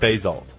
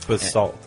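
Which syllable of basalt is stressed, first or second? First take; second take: first; second. First: The stress is on the first syllable. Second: The stress is on the second syllable. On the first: The speaker calls it wrong. "I said basalt" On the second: The speaker calls it right. "or the emphasis on salt"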